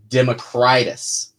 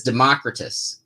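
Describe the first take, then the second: First: Democritus said slowly as dem-uh-CRY-tus; own pronunciation. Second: Democritus stressed on the second syllable, de-MOCK-ri-tus; co-writer's pronunciation. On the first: Shown as a demonstration. Writer giving his own side of the dispute, Democritus as dem-uh-CRY-tus. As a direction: stress the third syllable of Democritus, long "i" like cry. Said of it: "and I say". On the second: Writer quoting the co-writer's rival pronunciation, Democritus as de-MOCK-ri-tus. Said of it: "He says Democritus".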